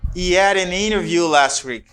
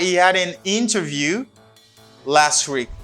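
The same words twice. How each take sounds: First: The words run together with linking. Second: The words are said separately without linking.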